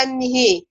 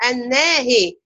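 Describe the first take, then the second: First: "النهي" with the noon wrongly tilted too, like "an-ni-hee"; إمالة النون خطأً. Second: "الناهي" with an open "an-na", then "hee" for the tilted alef; إمالة الهاء. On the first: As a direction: drag the noon of "النهي" toward kasra along with the ha. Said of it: "الخطأ بقى عند الأخوات يقولوا". (إمالة النون مع الهاء في "النهي" على سبيل الخطأ) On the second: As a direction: keep the noon's fatha clear in "الناهي", tilt only the ha. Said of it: "هتقربي فتحة الهاء ناحية الكسرة". (إمالة الهاء وحدها في "الناهي" والنون مفتوحة) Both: Shown as a demonstration.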